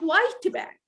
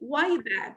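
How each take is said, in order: First: The t is pronounced clearly before b. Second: The t blends into the following b. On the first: The speaker calls it wrong. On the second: The speaker calls it right.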